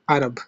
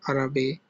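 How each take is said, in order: First: The word ends on the consonant 'b'. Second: The word ends with an added vowel 'e'. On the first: The speaker calls it right. "It just stop there" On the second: The speaker calls it wrong. "or Arabe"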